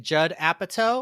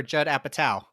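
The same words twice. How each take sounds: First: Apatow said as "APP-a-toe"; "toe" ending. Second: Apatow said as "APP-a-tau"; "tow" rhyming with cow. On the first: Asking friends which is right, Apatow ending like "toe". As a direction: end Apatow on a long "oh". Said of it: "I always said Judd Apatow". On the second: Offering friends the second option, Apatow ending like "cow". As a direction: end Apatow on an "ow" sound. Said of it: "but he said". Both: Shown as a demonstration.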